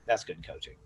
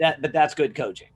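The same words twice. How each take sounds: First: "That's good coaching" dropped lower and much softer; understated, quiet wrap-up; soft closing repeat. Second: "that's good coaching" said higher and louder, punching it; upbeat, emphatic approval; emphatic praise. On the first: Repeats the praise to close. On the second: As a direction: declare "good coaching" with a lift of enthusiasm. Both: Real, not acted.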